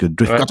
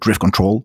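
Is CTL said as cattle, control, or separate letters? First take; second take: cattle; control. First: CTL is said as the word cattle. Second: CTL is said as the word control. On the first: This is a loose, slurred way of saying it. "Des fois, ça glisse sur le cattle" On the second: This is how English speakers say it. "en anglais, les gens ont plutôt l'air de dire Drift Control"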